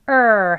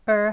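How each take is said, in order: First: It is loud, high-pitched and long. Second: It is soft, low-pitched and short. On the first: This is the stressed form of the sound. "강하게 높게 길게" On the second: This is the unstressed form of the sound. "약하게 그리고 이제 톤도 좀 낮게 그리고 소리도 짧지요"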